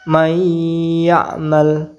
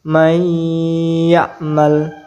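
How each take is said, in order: No difference in how they are said.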